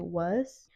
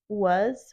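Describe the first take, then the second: First: The word ends with a hissing s sound. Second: The word ends with a buzzing z sound. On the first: "we turn the Z's into S's" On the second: "instead of saying was"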